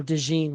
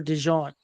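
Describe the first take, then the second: First: DeJean with a "zheen" ending; alternative pronunciation of DeJean. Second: DeJean with an open "zhahn" ending; pronunciation of DeJean. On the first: Host offering the other version, DeJean said as "dih-ZHEEN". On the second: Host naming a draft pick, DeJean said as "dih-ZHAHN". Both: Shown as a demonstration. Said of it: "however you wanna say his name".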